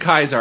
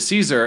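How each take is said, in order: First: The name begins with a K sound. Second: The name begins with an S sound. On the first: This is an old-fashioned, classical pronunciation. "the fancy old timey way" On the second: This is the usual modern pronunciation. "we're already like halfway through with Caesar"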